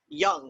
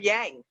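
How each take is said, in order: First: The vowel sounds like 'uh' in young. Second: The vowel sounds like 'ah' in father. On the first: The speaker calls it right. "as we appropriately say it" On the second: The speaker calls it wrong. "I always say it wrong the first time"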